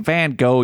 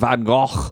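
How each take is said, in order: First: The name is said with an English-style pronunciation. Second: The name is said with a Dutch-style pronunciation. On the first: The speaker calls it right. "just say Van Gogh" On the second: The speaker calls it wrong. "they kept pronouncing his name Van Gogh, because I guess that's how you pronounce it in like Dutch"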